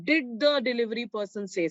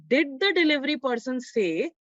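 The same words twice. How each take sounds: First: The same words with the tune falling at the end on say; quoted again, falling. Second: Example read with the tune rising at the end; question reading. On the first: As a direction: repeat it calmly, pitch dropping on say. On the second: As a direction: read it as a question, lifting toward say. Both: Shown as a demonstration. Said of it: "It has started with a question word".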